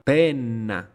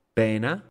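First: Penna loud, with a long held N; double N. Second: Pena with a short N, rising; single N. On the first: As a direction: linger on the N in penna. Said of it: "con doble consonante". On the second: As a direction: keep the N light in Pena. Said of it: "con una sola consonante". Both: Shown as a demonstration.

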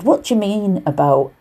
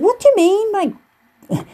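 First: Said in the usual way. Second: Very high, squeaky mock disbelief; exaggerated high-pitched retort; imitated baffled woman. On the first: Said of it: "which I won't attempt to do". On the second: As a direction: imitate her puzzled question, pitched right up. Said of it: "in a Liverpool accent".

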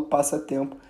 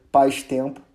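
First: Said in the usual way. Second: "paz-tempo" with the middle vowel of passatempo dropped; wrong contracted pronunciation. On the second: Shown as a demonstration. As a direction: say "paz-tempo" in two parts, first like "pais". ("paz-tempo" pronunciado errado, sem o "a" do meio) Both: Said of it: "eu não falo paz-tempo".

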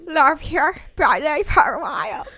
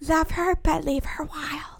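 First: Slow, loud, belted; sing-shout it like a pop star; [name]-like belt. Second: Slow breathy whisper; whispered indie voice. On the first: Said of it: "Sound like [name]". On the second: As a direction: hush it like a dreamy quote. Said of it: "Say that". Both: Shown as a demonstration.

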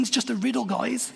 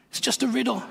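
First: Lightly exasperated, a touch higher and softer; mock disbelief, just a riddle, guys; exasperated aside. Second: Higher, softer exasperated repeat. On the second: Retold or imitated. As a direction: shake your head at how silly it is, softly. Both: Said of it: "I'm thinking".

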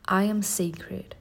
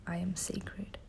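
First: Slow affirmation. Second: Faint whispered repeat; whispered echo. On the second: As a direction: whisper it back softly. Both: Shown as a demonstration. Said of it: "Say it with me".

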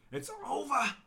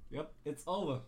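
First: It's over, wailed high and loud; mock dramatic wail. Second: Said in the usual way. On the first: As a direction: cry It's over in hammed-up despair. Dramatic repeat.

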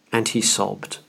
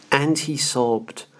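First: Said in the usual way. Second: "And he sobbed" slowed right down, each word weighted; slow, weighted repeat. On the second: Shown as a demonstration. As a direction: let "sobbed" land slowly and heavily. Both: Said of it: "What a remarkable sentence".

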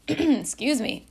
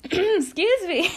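First: Throat-clearing, slow, raised excuse me; rough morning voice. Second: Much higher, louder, slow excuse me that cracks; cracking squeaky voice. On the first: Vlogger fighting her odd morning voice, throat-clearing. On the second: Vlogger's odd morning voice cracking high mid-apology. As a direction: let Excuse me squeak way up as the voice breaks. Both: Real, not acted. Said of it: "My voice is, like, so weird this morning".

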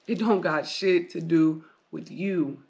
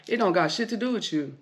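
First: "It don't got shit to do with you" said slower, each word landed; slow deliberate emphasis; slow, heavy repeat. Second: Said in the usual way. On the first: Shown as a demonstration. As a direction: hammer the line home slowly the second time.

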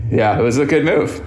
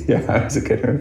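First: Laughing. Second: Said in the usual way. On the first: Real, not acted. Laughing at his childhood self.

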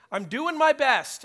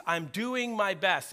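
First: "I'm doing my best" cried out high and loud, stress on "my"; desperate pleading. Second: Said in the usual way. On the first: Retold or imitated. Man on his knees insists to the Lord, loudly. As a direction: beg God to see how hard you try. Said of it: "pleading to the Lord". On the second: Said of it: "I remember that phrase".

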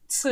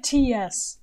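First: "Ts" as one tight hissing affricate; Ts sound. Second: Said in the usual way. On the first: Shown as a demonstration. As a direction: clip "Ts" together into one sound. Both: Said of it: "It's like T S".

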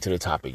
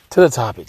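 First: Dropped down, quieter echo; softer repeat. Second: Louder, punchier first call; louder call to the topic. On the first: Vlogger repeats the topic cue to his audience, softer. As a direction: say it again under your breath. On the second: Vlogger calls his audience back to the topic, louder. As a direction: announce it to the listeners. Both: Real, not acted.

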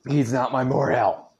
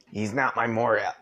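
First: Louder, higher retake of the shout; shouted denial. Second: Strained after choking; throat catching. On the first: Acted. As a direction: yell the line properly this time. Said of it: "Get some water". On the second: Real, not acted. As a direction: push through a sore throat. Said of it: "meat lunge itself in the back of my throat".

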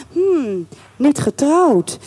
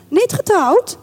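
First: Drawn-out, musing murmur to oneself; pensive. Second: High, rising double-check; questioning surprise. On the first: A narrator's reading. Colonel's wife mulling over his bachelorhood, pensive and slow. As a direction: mull it over slowly. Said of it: "zei ze peinzend". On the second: Acted. Colonel's wife rechecking his bachelorhood, high surprised question. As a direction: lift it into an intrigued question.

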